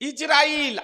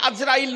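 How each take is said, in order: First: The name begins with an 'i' sound. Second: The name begins with an 'a' sound. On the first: The speaker calls it right. "আজরাইল বলিয়েন না" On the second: The speaker calls it wrong. "নামটি আজরাইল নয়"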